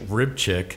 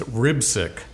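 First: The name has a 'ch' sound in the middle. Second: The name has an 's' sound in the middle. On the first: The speaker calls it wrong. "I've been mispronouncing her name" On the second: The speaker calls it right. "It's Ribsick, right, Coach?"

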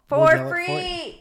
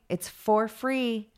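First: It is yelled loudly. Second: It is said at a normal speaking volume.

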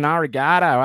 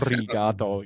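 First: It is said in a broad Australian accent. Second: It is said with a rolled R.

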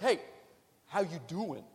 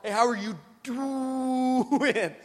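First: It is said casually and lightly. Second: It is said with strong, pointed emphasis.

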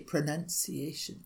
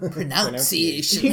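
First: The second syllable sounds like 'nun'. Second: The second syllable sounds like 'noun'. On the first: The speaker calls it right. "we all say" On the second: The speaker calls it wrong.

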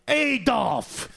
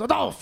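First: The name is said with an American accent. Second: The name is said with a German accent.

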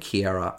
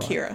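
First: The name has an extra vowel in the middle. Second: The name has no extra vowel in the middle. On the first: The speaker calls it wrong. "I added an A. An I in there" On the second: The speaker calls it right. "you're right. Kira"

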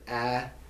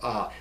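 First: The vowel is a short 'a' sound. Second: The vowel is an open 'ah' sound. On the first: "It's either a or ah" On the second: "It's either a or ah"

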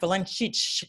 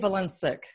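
First: The name has its Eastern European pronunciation. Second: The name has an anglicized English pronunciation. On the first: "Really talking Eastern European, it'd be something like" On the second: "I say"

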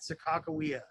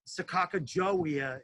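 First: The name is said with hard 'k' sounds inside. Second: The name is said with a 'j' sound inside. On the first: This is how the local tribes say the name. The speaker calls it right. "they pronounce it Sakakawea. That's how they say it" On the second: This is how most outsiders say the name. The speaker calls it wrong. "people say it wrong all the time. Like people say Sakakajowia, it's not pronounced like that"

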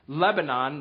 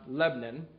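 First: It has the standard, fuller pronunciation. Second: It has the local, clipped pronunciation. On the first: It names the country in the Middle East. "And it's Lebanon" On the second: It names the local town in Pennsylvania. "not Lebanon"

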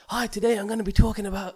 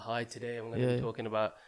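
First: The voice is lively and high in energy. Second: The voice is flat and low in energy. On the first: The speaker comes across as enthusiastic. The speaker calls it right. "So you need to be like" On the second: The speaker seems unenthusiastic even if they are not. The speaker calls it wrong. "if you just do that, it don't sound like you're enthusiastic"

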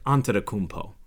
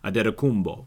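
First: The NT and MP are said as written, ending po. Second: The NT sounds like D, the ending like bo. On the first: This is the way the name is said in Greece. "But in Greece, they would say, like, you would just say, like" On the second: This is the Nigerian way to say the name. "the Nigerian way to say it is Antetokounmpo, because the NT makes the D sound, and the MP at the end makes the B sound"

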